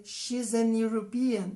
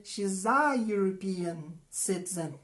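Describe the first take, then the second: First: "she's an European" said as the error, with an before European; wrong example. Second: "she's a European citizen" with a and a yoo sound; correct example. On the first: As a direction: model the mistake deliberately. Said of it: "Não". (exemplo errado: "an European") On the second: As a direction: say the right form, slowly. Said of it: "Eu vou dizer". (forma correta: "a European", com som de iu) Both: Shown as a demonstration.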